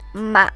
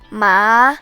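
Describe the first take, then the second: First: The pitch falls and then rises again. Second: The pitch rises moderately. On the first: "The third tone falls and then rises again" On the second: "The second tone rises moderately"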